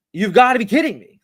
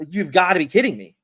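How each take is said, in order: First: Louder, higher exasperated repeat; replayed outrage at the airline losing the bag. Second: Said in the usual way. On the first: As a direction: raise it in frustration. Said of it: "oh, it's frustrating". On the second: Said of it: "I was like".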